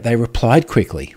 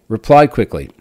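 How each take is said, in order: First: Said in the usual way. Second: "Replied quickly" said louder, each word leaned on; emphatic repeat. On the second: Shown as a demonstration. Echoing his own praise of the company, louder and emphatic. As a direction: hit "Replied quickly" hard to underline it.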